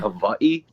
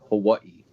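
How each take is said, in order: First: The middle consonant is a clear V sound. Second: The middle consonant is between W and V. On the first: "pronounce the W like a V" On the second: "kind of like a mix between the two"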